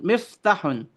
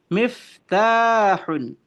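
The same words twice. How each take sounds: First: "miftahun" said quickly, vowels short; clipped wrong "miftahun"; wrong reading. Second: "miftahun" slow and drawn out; correct reading. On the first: Teacher shows students the wrong reading, quick. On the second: Teacher gives students the right reading, slow. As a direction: stretch "miftahun" carefully. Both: Shown as a demonstration. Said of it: "Bukan miftahun, tetapi miftahun".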